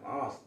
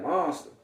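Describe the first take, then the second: First: "Monster." repeated softer, as if stunned; stunned echo. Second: Proud announcement. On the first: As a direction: echo "Monster." quietly in disbelief. He repeats name, stunned by dream. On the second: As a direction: announce "Monster." like a badge of honor. Brother proudly announces new name. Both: Retold or imitated.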